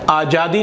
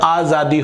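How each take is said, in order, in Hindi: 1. यह व्यंजन j की आवाज़ है। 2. यह व्यंजन z की आवाज़ है। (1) "आज़ादी नहीं होता" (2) "इसके नीचे नुक्ता है"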